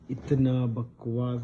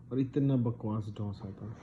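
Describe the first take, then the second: First: इतना बकवास slowed right down and said louder, both words leaned on; stressed disgust. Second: Said in the usual way. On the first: Real, not acted. Telling his brothers about the awful dosa, slow emphatic disgust.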